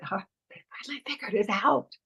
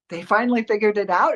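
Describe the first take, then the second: First: It is said quietly, like a secret. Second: It is said in an excited way.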